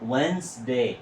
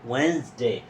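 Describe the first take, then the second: The two takes are said the same way.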